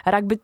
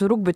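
First: „rugby” przez „a”: ragby; druga, angielska wymowa. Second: „rugby” przez „u”, jak w pisowni; polska wymowa. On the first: („rugby” z samogłoską „a”, po angielsku) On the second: („rugby” z samogłoską „u”, po polsku) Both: Shown as a demonstration. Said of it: "czy chociażby rugby".

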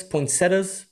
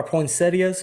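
First: Poinsettias with three syllables, poin-SET-as; alternate pronunciation. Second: Poinsettias with four syllables, poin-SET-ee-as; alternate pronunciation. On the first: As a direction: say poinsettias ending in plain "-tas". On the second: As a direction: say poinsettias ending in "-ee-as". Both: Retold or imitated. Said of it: "I was tripping out".

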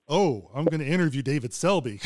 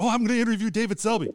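First: A touch of nervous dread; mild dread. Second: High, fast, thrilled gushing; eager rush of excitement; excited. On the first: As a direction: let the thrill turn to worry. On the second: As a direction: rattle it off like a starstruck fan. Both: Retold or imitated. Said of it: "It's like".

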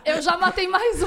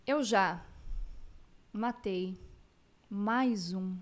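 First: Laughing through the line. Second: Eu já / matei / mais um, long pauses between; staccato. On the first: Real, not acted. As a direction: blurt it out mid-laugh. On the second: Shown as a demonstration. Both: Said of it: "eu tô tentando até falar pausado".

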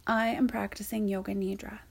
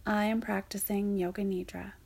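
Both takes have the same delivery.

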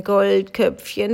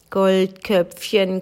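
First: Slow call of the name, lifting at the end; slow rising call. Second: Long, slow, falling call of her name. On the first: The thirteenth man calls her name again, slow and rising. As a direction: repeat the name slowly and pull it upward. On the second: The thirteenth man calls to the frozen girl, slow and falling. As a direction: draw the name out and let it sink. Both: A narrator's reading. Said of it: "rief der dreizehnte".

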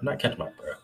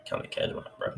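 First: Said in the usual way. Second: Breathless, airy whisper; winded, struggling for air; out of breath. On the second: Real, not acted.

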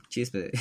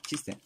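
First: "chispe" said with a p where the t belongs; botched joke word. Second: Said in the usual way. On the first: Shown as a demonstration. Trips on the word "chispe" while joking about masturbating. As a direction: slip and say "chispe" instead of "chiste". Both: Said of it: "chispe, ¿ves?".

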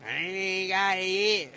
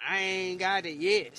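First: Loud, slow, drawn-out mock boast; exaggerated mocking quote. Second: Louder mock boast; mocking quote. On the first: Mimicking people who think karma missed them, exaggerated mocking. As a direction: stretch it out loudly in an exaggerated mocking voice. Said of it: "them type of people that say". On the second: Imitating people who boast about dodging karma, mocking. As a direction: quote the boasters with some force. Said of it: "people come up to you and say".

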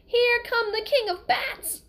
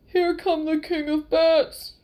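First: High, slow shrieking cry of alarm; mother's scream. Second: Loud, slow panicked scream; terrified scream. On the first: Retold or imitated. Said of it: "heard his mother scream". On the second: A narrator's reading. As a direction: scream it in pure terror. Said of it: "Fezzik screamed".

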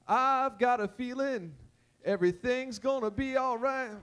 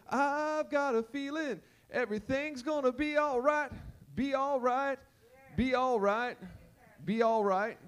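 First: Slow gospel singing, held notes; slow sung hymn line. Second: Sung gospel refrain. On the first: Retold or imitated. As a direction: sing it slowly. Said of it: "if I had you on the keyboard". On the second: Pretend. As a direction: sing it out, repeating the ending. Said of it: "that's the keys".

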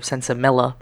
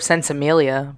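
First: Sensimilla with no y-glide, ending -illa. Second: Sensimilia with a -MEEL-ya ending; ending in -ilia. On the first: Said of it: "I've heard of Sensimilia". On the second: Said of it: "I've never heard of Sensimilla". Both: Shown as a demonstration.

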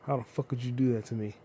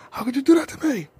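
First: Said in the usual way. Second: Much higher, louder betrayed wail; mock anguished wail. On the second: Vlogger wailing at the unsubscriber, hammed-up betrayed cry. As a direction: ham up the heartbreak.

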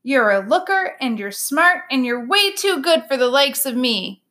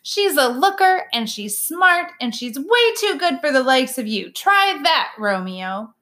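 First: A plainer Bob parroting the bunny's line; dutifully repeating. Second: Higher, punchy bunny feeding Romeo his lines; bunny prompts Bob, punching looker and smart; bossy bunny. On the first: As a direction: repeat it back a bit flatly. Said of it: "I repeat". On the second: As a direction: coach him like a cheeky little bunny. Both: A narrator's reading.

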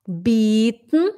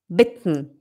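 First: "Bitten" as bieten, long drawn-out ee, rising. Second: "bitten" with a short, lax i, lower and falling. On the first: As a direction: stretch the vowel in "Bitten" into a long ee. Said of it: "o bitten é oferecer". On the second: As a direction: clip the vowel in "bitten" short. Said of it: "O bitten é pedir". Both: Shown as a demonstration.

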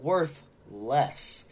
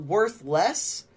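First: "worth less" as two separate words, weight on "less"; "worth ... less", slowly parted to contrast with worthless; split in two words. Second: "worth less" run together as one word; "worth less" as worthless, no gap. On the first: Host corrects the meaning, "worth less" split in two. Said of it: "but worth less than the". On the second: Host rules out one meaning of the trade, "worth less" as one word. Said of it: "not worth less, but". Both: Shown as a demonstration.

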